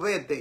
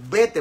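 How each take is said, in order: First: It is said calmly, without urgency. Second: It is said urgently, as a sharp command. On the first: The speaker calls it wrong. "yo digo vete" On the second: The speaker calls it right. "no, no, no, es vete, vete urgentemente"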